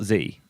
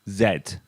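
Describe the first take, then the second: First: The letter is pronounced like 'zee'. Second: The letter is pronounced like 'zed'. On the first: "not Z" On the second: "being British, I pronounce the final letter of the alphabet as Z"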